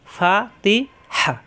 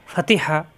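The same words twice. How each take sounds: First: ফা তি হা split into slow separate beats; slow, syllable by syllable. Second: Fatiha said as one quick word; quick, joined. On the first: Teacher breaking Fatiha into parts for a student, slowly. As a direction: spell ফা তি হা out slowly, one beat each. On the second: Teacher joining the syllables into one word Fatiha, quickly. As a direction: run Fatiha together quickly. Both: Shown as a demonstration. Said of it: "ফাতিহা, হরকত উচ্চারণ তাড়াতাড়ি".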